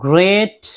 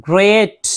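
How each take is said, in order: Both takes have the same delivery.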